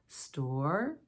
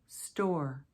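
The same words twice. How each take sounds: First: The pitch glides upward through the word. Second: The pitch glides downward through the word. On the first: It asks a yes-or-no question. "My voice still rises, ... I use a glide or a slide" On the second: It asks for information. "sliding down"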